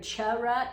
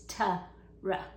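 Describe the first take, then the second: First: It begins with a ch sound. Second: It begins with a clear t sound. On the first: The speaker calls it wrong. "When you hear cha-ra" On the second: The speaker calls it right. "it's ta-ra"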